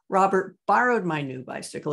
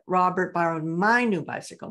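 First: The word 'borrowed' is stressed. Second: The word 'my' is stressed. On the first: He borrowed it rather than stole it. "He didn't steal it" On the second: It was my bicycle and not yours. "not yours"

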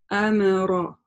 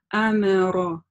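Both takes have the same delivery.

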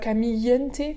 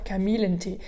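First: The middle consonant is a Y sound. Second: The middle consonant is a clear L sound. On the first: The speaker calls it wrong. "c'est pas Kamillentee, le Y comme Camille en français" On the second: The speaker calls it right. "là on prononce vraiment des L"

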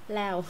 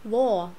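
First: The vowel glides like 'ao', in a Vietnamese accent. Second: The vowel is strongly rounded, in a British accent. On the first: "Anh Việt lao. No, không có lao nha" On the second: "anh law"

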